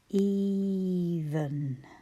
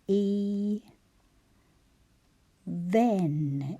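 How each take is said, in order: First: The word flows with a rushed second syllable. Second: The syllables are split with a full second vowel. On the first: "I said it the way we tend to say it" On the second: "is how we're going to say it"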